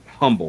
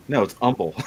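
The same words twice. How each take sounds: First: Humble with the h sounded; locals' humble. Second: Humble said as umble with no h; correcting humble. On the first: Imitating locals saying the town name, says humble with the h. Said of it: "people who are from here who say it". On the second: Correcting the locals, says humble as umble with no h. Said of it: "I'm like". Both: Retold or imitated.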